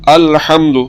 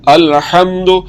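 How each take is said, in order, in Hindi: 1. आखिरी u स्वर छोटा रखा जाता है। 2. आखिरी u स्वर छोटा रखा जाता है।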